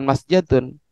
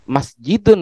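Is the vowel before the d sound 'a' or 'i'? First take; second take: a; i. First: The vowel before the d is a. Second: The vowel before the d is i. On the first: This is the form the rule would predict. The speaker calls it wrong. "bukan masjadun" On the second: This is the form people actually use. The speaker calls it right. "sampean bilang masjidun"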